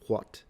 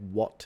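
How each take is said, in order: First: It begins with a breathy h-like w sound. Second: It begins with a plain w sound.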